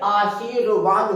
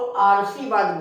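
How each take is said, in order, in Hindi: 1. र की ध्वनि ठीक 'वा' अक्षर से पहले आती है। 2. र की ध्वनि ठीक 'शि' अक्षर से पहले आती है। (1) "जबकि आशीर्वाद होता है" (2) "यहां रा लगा दोगे तो आरसीवाद बोला जाएगा"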